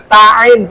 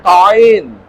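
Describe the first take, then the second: First: The first syllable is thin and light. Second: The first syllable is thick and heavy. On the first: The speaker calls it right. "Ya ta'in" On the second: The speaker calls it wrong. "bukan to'in"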